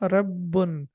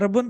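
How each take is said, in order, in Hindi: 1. "b" की आवाज़ रोकी हुई और दोहरी है। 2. "b" की आवाज़ छोटी और एक ही है। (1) "बल्कि ये होगा रब्बुन" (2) "इसको रब्बुन पढ़ना गलत होगा"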